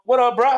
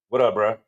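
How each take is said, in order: First: It is said in a warm, friendly tone. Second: It is said in a cool, dismissive tone.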